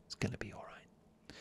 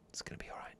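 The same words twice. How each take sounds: First: Hushed whisper of reassurance. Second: Soft whispered comfort. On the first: Host whispering comfort to listeners in bed, whispered. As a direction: whisper it close and gentle. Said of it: "do you like the whisper?". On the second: Host whispering comfort to sleepy listeners, whispered. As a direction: breathe it like comfort in a hug. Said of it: "I whisper that". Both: Shown as a demonstration.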